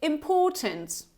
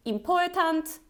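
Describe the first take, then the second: First: Important starting with a short, lax "im"; correct short vowel. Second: Important starting with a tense "eem", higher; wrong long vowel. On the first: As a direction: say important as "im-PAW-tnt". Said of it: "it's important". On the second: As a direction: mispronounce important as "eem-POR-tant". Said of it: "It's not important". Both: Shown as a demonstration.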